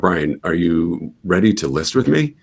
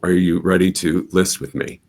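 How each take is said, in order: First: The voice rises at the end, sounding unsure. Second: The voice falls at the end, sounding confident.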